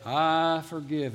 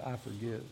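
First: Slow, drawn-out declaration at full voice; declared aloud. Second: Soft, low-pitched murmur; much softer and lower, almost private; under the breath. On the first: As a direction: lead a congregation in a spoken vow. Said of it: "say it with your mouth". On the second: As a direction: say it hushed, just for yourself. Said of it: "whisper it under your breath". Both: Shown as a demonstration.

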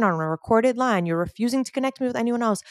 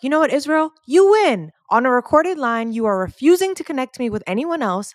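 First: "on a recorded line" said again, firm and measured, without the shout; deliberate restatement. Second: Higher and louder, fed-up exasperation; frustrated outburst. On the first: Caller repeating her demand to Israel for the record, firm and controlled. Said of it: "I'm saying it again". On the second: Caller finally snapping at unhelpful rep Israel, loud fed-up outburst. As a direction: blow up at him at last, fed up. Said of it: "I get so frustrated that I'm finally like". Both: Retold or imitated.

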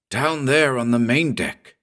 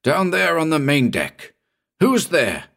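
First: A read-aloud shout, higher. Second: Shouted. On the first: Captain calling down to the main deck, sharp shout. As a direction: call out sharply into the fog. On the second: Captain repeating his call into the fog, higher shout. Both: A narrator's reading. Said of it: "shouted the captain abruptly".

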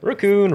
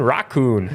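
First: RACCOON with a weak first syllable, pitched high; ruh-COON version. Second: RACCOON with an open "rock" first syllable; rock-COON version. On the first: Host tests both ways, ruh-COON first. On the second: Host tests both ways, rock-COON second. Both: Shown as a demonstration. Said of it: "honestly confused".

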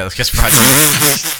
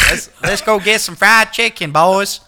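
First: Said in the usual way. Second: Higher-pitched, put-on Southern twang; Southern accent. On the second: Shown as a demonstration. Playing the Turtles if they were in Atlanta, hammed-up Southern accent. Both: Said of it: "I'm trying to do a Southern accent".

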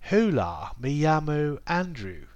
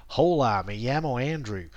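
First: Put-on Spanish said in a very posh English accent. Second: Put-on Spanish with a North American English accent. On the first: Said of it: "very posh English accent". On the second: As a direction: carry North American vowels straight into the Spanish. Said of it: "In, in North America".

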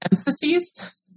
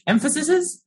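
First: "emphases" ending in a long "-seez", rising high; unsure plural. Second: "emphases" with an extra syllable, EM-fuh-sis-iz; alternative plural attempt. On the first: Unsure if it is a word, "emphases" said EM-fuh-seez. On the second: Second guess at an unsure plural, "emphases" as EM-fuh-sis-iz. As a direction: stretch "emphases" into EM-fuh-sis-iz, high and rising. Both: Shown as a demonstration. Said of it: "I don't know if emphases is a word".

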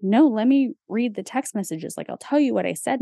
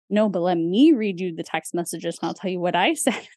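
First: Said in the usual way. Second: "me" and "I" punched in a retold retort; stress on ME. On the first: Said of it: "then he was like". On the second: Wife retorts to husband about text messages, stressing "me" and "I". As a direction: throw it back, leaning on "me" and "I". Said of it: "And I was like".

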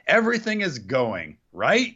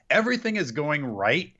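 First: "right?" split off with a rising question tune; bad acting. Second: Said in the usual way. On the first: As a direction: pause after "going", then a lifted "right?". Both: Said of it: "he literally delivers it like".

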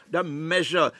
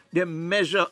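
No difference in how they are said.

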